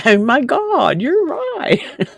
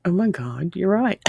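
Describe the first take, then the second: First: Laughing, voice leaping high on the repeat; laughing realization. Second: Said in the usual way. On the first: Retold or imitated. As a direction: burst out laughing as it sinks in. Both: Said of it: "And it's like".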